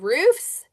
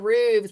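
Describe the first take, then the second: First: The word is said with an f sound. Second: The word is said with a v sound. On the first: The speaker calls it right. "you said roofs" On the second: The speaker calls it wrong. "not roofs with a V"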